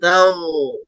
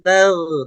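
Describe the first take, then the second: First: The consonant is pronounced thick and emphatic. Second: The consonant is pronounced thin, not emphatic. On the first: The speaker calls it right. "ditebalkan suara huruf ghainnya" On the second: The speaker calls it wrong.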